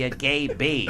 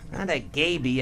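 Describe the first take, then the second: First: "bee" lifted with a rising end in "a gay bee"; stress on bee. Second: "a" leaned on in "Not a gay bee"; stress on a. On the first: Correcting Lee Iacocca, lifting "bee" with a rise. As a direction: land on "bee" and let the pitch rise. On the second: Telling Lee Iacocca which word he misheard, leaning on "a". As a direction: push the word "a" in "a gay bee", keep "bee" level. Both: Shown as a demonstration.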